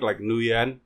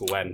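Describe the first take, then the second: First: The name is read out letter by letter. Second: The name is said as one short syllable 'Wen'. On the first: The speaker calls it wrong. "if you read it out loud, that's how it sounds like Nguyen" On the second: The speaker calls it right. "But it's pronounced Wen"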